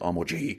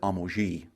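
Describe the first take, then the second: First: The G is hard, as in English. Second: The G is soft, as in French.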